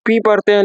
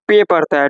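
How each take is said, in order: First: "पी" as pee, long ee; English letter P. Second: "पे" as pay, long ay; German letter P. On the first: Teacher cites how we read P, English pee. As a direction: say "पी" the Indian-English way. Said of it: "पढ़ते हैं हम लोग". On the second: Teacher shows how Germans read it, pay. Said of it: "लेकिन वो लोग". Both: Shown as a demonstration.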